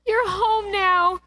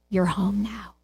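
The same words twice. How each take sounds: First: Higher, slow, lingering emphasis; drawn-out joyful echo; high slow savouring. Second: A quiet homecoming whisper of comfort; quiet tender father. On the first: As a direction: savour each word with rising delight. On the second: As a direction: hush it like a father calming his boy. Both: Shown as a demonstration. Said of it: "I love this story".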